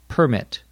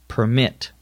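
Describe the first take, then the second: First: The stress is on the first syllable. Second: The stress is on the second syllable. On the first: It is used as a noun. "the accent is on the first syllable" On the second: It is used as a verb. "the accent is on the second syllable"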